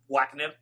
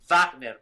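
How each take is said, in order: First: The first syllable sounds like the English word wag. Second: The name is pronounced the German way. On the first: The speaker calls it wrong. "That sounds like wag" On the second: The speaker calls it right. "It's a German word"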